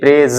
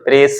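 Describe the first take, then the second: First: The word ends with a z sound. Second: The word ends with an s sound. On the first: The speaker calls it right. "ये प्रेज है" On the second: The speaker calls it wrong. "स प्रेस नहीं"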